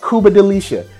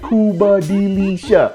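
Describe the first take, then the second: First: The name is said quickly. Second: The name is said slowly. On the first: "You gotta say it fast" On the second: "Or you can be like"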